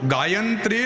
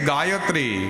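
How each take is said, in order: First: An extra n sound comes before the t. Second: No n sound comes before the t. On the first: The speaker calls it wrong. "ઘણા તો ગાયંત્રી એવું બોલે. ગાયંત્રી નહીં" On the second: The speaker calls it right.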